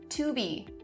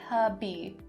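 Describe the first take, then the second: First: The word to has a full vowel. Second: The word to is reduced to ta.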